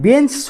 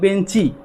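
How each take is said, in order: First: The word ends on a consonant sound. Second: The word ends with an added vowel sound. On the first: "বেঞ্চ শব্দটাকে" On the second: "আমরা বললাম বেঞ্চি"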